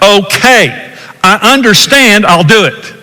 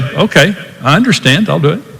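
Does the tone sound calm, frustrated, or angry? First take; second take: angry; calm. First: It is said in an angry tone. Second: It is said in a calm, caring tone.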